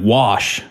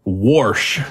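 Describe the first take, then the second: First: Said in the usual way. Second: "Warsh" with an R before the SH; intrusive R. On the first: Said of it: "instead of wash". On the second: Retold or imitated. Podcaster quoting an aunt's word, intrusive R. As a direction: put an R into wash: "Warsh". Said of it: "My aunt used to say this".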